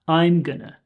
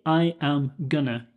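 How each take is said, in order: First: I am is contracted into one syllable. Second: I am is said as two full words. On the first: The speaker calls it right. "Usually we would say I'm or she's" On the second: The speaker calls it wrong. "But we don't say I am gonna"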